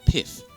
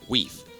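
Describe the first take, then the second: First: The word begins with a P sound. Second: The word begins with a W sound. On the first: The speaker calls it wrong. "Probably think this is pronounced as pith" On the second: The speaker calls it right. "the correct pronunciation of this word is weef"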